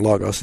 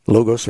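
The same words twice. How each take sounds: First: "Logos" with an open O, LAH-gahs; alternative pronunciation. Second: "Logos" with a long O, LOH-gohs; first pronunciation. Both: Shown as a demonstration. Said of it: "it's pronounced both ways".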